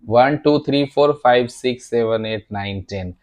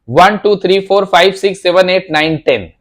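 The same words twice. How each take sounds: First: The loudness drops as the count goes on. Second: The loudness stays the same throughout the count.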